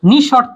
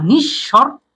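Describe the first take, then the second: First: The sh sound after the first syllable is single. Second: The sh sound after the first syllable is doubled. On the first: The speaker calls it wrong. "না" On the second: The speaker calls it right. "পরবর্তী ব্যঞ্জনের দ্বিত্ব ঘটায়"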